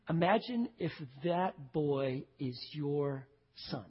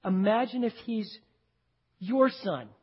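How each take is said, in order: First: Slow and soft, letting it sink in; slow, hushed imagining. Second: Said in the usual way. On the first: Shown as a demonstration. Preacher urging his congregation to picture their own son, slow and hushed. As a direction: draw them in slowly and quietly. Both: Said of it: "Do it".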